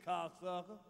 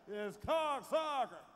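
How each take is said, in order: First: Low cocksucker, rising at the end. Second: Slow, drawn-out cocksucker. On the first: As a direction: say cocksucker heavy and deep-low. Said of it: "Our voice too heavy". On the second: Showing how it should sound, slow and drawn-out. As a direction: stretch cocksucker out slowly. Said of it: "can't say cocksuckers". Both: Shown as a demonstration.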